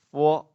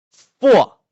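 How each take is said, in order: First: Said in the usual way. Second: "four" very high and loud, falling sharply; fourth tone. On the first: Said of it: "If I give this one". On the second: Shown as a demonstration. Teacher applies last tone, forceful falling syllable. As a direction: throw "four" down hard from a high start. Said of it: "give the last tone".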